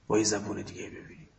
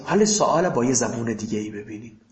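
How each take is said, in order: First: Much softer, faster repeat under the breath; quiet quick echo. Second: Said in the usual way. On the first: Real, not acted. Teacher echoes his own phrase to students, soft and quick. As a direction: toss the repeat off softly to yourself.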